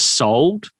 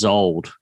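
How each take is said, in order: First: The word begins with an S sound. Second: The word begins with a Z sound. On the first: "instead of saying it was sold" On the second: "he says it was zold with a Z"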